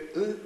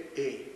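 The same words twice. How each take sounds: First: The vowel is closer, tenser and further back. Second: The vowel is more open, relaxed and further forward. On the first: This is how a Russian speaker says it. The speaker calls it wrong. "російське «и»" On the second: This is how a Ukrainian speaker says it. The speaker calls it right. "українське «и», сюди ближче, ближче"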